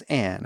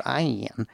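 First: Said in the usual way. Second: Imitated Tennessee drawl on "I am"; Tennessee accent. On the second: Man quoting his dinner companion's name, in a Tennessee accent. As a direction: stretch "I am" in a Southern twang. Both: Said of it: "or she said".

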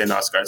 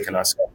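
First: Knausgaard with a silent K, starting on N. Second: Knausgaard with the K sounded, "kuh-NOWS-gard". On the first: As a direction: say Knausgaard as "NOWS-gard", dropping the K. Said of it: "Some people say Knausgaard". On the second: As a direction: pronounce the K in Knausgaard, with a short vowel before N. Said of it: "some people say Knausgaard". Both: Shown as a demonstration.

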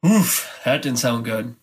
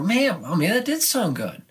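First: A deflated, let-down "oof"; mock disappointment at a bad run-through; disappointed groan. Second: Higher, thrilled "Man, oh man"; mock delight at a great run-through; impressed delight. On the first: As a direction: sigh it out like a student who hated the take. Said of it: "And you go". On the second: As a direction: gush like a student who loved the take.

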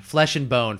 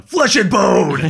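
First: Said in the usual way. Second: Hammed-up shout, louder and higher; mock battle cry. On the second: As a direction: belt it out like a silly war cry. Repeats own phrase as a shout.

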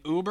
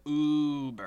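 First: Said in the usual way. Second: Uber with a long, held first vowel; drawn-out Uber. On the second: Shown as a demonstration. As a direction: stretch the "U" of Uber right out. Contrasts two ways of saying Uber.

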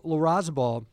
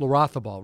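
First: "Larrazabal" read with an English z sound; mispronounced name. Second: "Larrazabal" as la-RATH-a-bal, Castilian style; corrected pronunciation. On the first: Host unsure of the golfer's Spanish name, saying "Larrazabal" with a z. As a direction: say "Larrazabal" with a buzzing z in the middle. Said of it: "I'm probably saying that wrong". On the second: Host correcting the golfer's name, "Larrazabal" with a th sound. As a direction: say "Larrazabal" with th in place of the z. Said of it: "right, like Olazabal". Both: Real, not acted.

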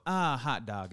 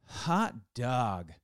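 First: "Ah, hot dog" run together after a leading "Ah"; wrong hot dog. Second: "Hot dog" as two spaced, drawn-out beats; joyful exclamation. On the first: Retold or imitated. Correcting cohost, you don't go like this, wrong way. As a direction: imitate a quick, folksy knee-slap exclamation. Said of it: "You don't go". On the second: Shown as a demonstration. Something great happens and you go, joyful exclamation. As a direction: celebrate great news, stretching both words. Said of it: "something great happens and you go".

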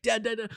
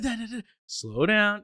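First: High, eager rush of Dad, Dad, Dad; a kid bursting to tell his dad something, pitched up; Dad, Dad, Dad called out high and excited; excited kid calling. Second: High but slow Dad, Dad, Dad; a kid trying to slow his excited words down; Dad, Dad, Dad said high, then slow down drawn out; eager kid, slowed down. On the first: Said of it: "'cause I'd get really excited". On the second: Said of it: "And I'd be like". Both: Retold or imitated.

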